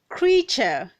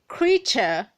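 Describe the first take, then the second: First: The word is said with two syllables. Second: The same.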